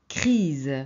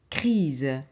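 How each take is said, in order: Both takes have the same delivery.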